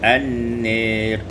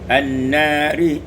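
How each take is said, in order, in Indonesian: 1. Vokal panjang itu condong ke e. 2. Vokal panjang itu adalah a terbuka yang biasa.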